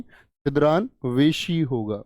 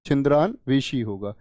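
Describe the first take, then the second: First: छिद्रान्वेषी said slowly, every syllable clear; teacher models छिद्रान्वेषी slowly; slow careful model. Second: Said in the usual way. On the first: Shown as a demonstration. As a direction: spell out छिद्रान्वेषी slowly as the right form. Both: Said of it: "छिद्रान्वेषी की अगर हम बात करें".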